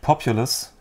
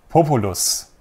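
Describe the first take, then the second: First: The word is pronounced the English way. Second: The word is pronounced the German way.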